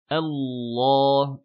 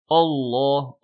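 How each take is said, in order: First: The opening hamza is thin and light. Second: The opening hamza is heavy and emphatic. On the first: The speaker calls it right. "la hamza est toujours amincie" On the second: The speaker calls it wrong. "et ne pas faire Allah, O, avec un A, donc une hamza emphatique"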